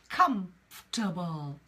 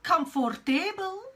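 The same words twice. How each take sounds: First: The middle O is dropped, giving three syllables. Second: The middle O is sounded, giving four syllables. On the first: The speaker calls it right. "So we drop that O" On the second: The speaker calls it wrong. "It is not comfortable"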